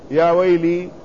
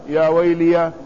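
First: The L is followed by an i vowel. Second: The L is followed by an a vowel. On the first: "وكسرها" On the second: "يجوز فيه فتح اللام"

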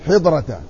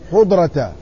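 First: The first vowel is a short i. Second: The first vowel is a short u. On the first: "وكسرها" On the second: "وضمها"

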